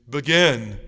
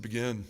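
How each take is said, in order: First: A lower, louder command from a gruff priest; stern priest command. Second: A lower, much softer, unsure repeat; clueless echo. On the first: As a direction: insist like an impatient old priest. Priest repeats his order firmly. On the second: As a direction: parrot the word back, lost. He echoes the word, clueless. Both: Retold or imitated.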